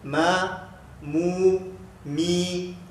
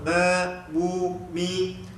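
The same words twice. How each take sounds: First: Sound comes through both the nose and mouth. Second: The nose is pinched, blocking nasal sound. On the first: The speaker calls it right. "keluar ikut hidung, keluar ikut mulut" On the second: The speaker calls it wrong. "Kalau kita tutup"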